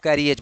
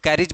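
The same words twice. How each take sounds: First: "कैरिएज" in three syllables, kai-ri-EJ; three-syllable pronunciation. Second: "कैरिज" in two syllables, KAIR-ij; two-syllable pronunciation. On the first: Teacher showing students the other way people say it, "कैरिएज" as three syllables. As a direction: say "कैरिएज" with a separate long e before the final j. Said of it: "कुछ लोग कैरिएज बोलते हैं". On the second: Teacher showing students how some people say it, "कैरिज" as two syllables. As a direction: say "कैरिज" short, no separate e before the final j. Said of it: "कुछ लोग कैरिज बोलते हैं". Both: Shown as a demonstration.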